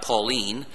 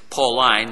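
First: It is said as the girl's name. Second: It is said as the adjective from Paul. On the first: It is a girl's name. The speaker calls it wrong. "Pauline is a girl's name" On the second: It refers to the writings of Paul. The speaker calls it right. "Pauline is the writings of Paul"

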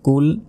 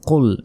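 First: The first consonant is a light k sound. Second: The first consonant is a heavy, deep q sound. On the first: The speaker calls it wrong. "আমরা অনেকে ভুল বলি, বলি যে কুল, এটাকে বলি কুল" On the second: The speaker calls it right. "আছে কফ, তাই মোটা করে উচ্চারণ হবে"

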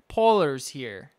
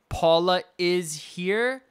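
First: An r sound is added after Paula. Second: No r sound is added after Paula. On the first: "they add R's to certain words" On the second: "instead of saying Paula is here"

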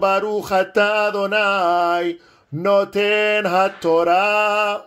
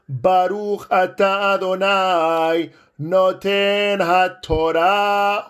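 First: It is said a little faster. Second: It is said at a normal pace.

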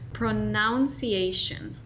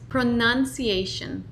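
First: The u vowel is pronounced in a distorted way. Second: The u vowel is pronounced in a clear way. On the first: The speaker calls it wrong. "Primero vamos a pronunciarlo mal" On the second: The speaker calls it right.

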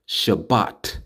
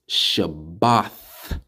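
First: The word ends with a plain t sound. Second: The word ends with a th sound. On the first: The speaker calls it wrong. "It's not Shabbat" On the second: The speaker calls it right. "Shabbath with a TH at the end, not just a T"

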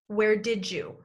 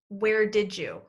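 First: It is said as 'where didja', with 'did' and 'you' linked into 'didja'. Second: The same.

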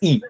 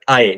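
First: The vowel sounds like 'ee'. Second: The vowel sounds like 'eye'. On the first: The speaker calls it right. "I is always pronounced as E" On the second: The speaker calls it wrong. "never I"

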